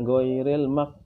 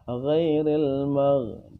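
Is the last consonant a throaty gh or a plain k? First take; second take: plain k; throaty gh. First: The last consonant sounds like a plain k. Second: The last consonant is a throaty gh. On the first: The speaker calls it wrong. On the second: The speaker calls it right.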